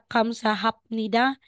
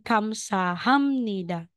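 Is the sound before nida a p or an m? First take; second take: p; m. First: A p sound comes before nida. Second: An m sound comes before nida. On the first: The speaker calls it wrong. "Hindi po siya kamsahapnida" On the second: The speaker calls it right. "Magiging kamsahamnida"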